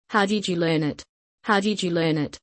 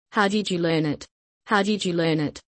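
No difference in how they are said.

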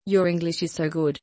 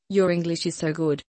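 No difference in how they are said.

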